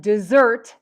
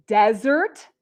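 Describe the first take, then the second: First: Desert as dih-ZERT; desert with weak first syllable, strong ZERT; second-syllable stress. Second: Desert as DEZ-ert, rising at the end; desert with full DEZ, weak ending; first-syllable stress. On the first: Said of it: "desert second". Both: Shown as a demonstration.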